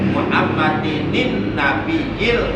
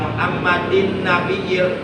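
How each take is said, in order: First: An extra 'nin' syllable links into 'nabiyil'. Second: No extra syllable comes before 'nabiyil'. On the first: The speaker calls it right. "bacaannya yang benar adalah Muhammadinin" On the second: The speaker calls it wrong. "nah itu salah. Karena tidak menggunakan nun hikoyah"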